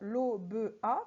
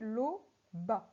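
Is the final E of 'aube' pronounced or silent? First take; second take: pronounced; silent. First: The final E of aube is pronounced. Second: The final E of aube is silent. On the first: The speaker calls it wrong. "je ne vais pas dire" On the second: The speaker calls it right.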